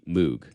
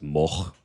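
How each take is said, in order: First: It is said the British way. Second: It is said the original Dutch way. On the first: It is a regional habit, not wrong. "that's just kind of how the Brits say it" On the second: It is the original form of the name. "originally it was Moch"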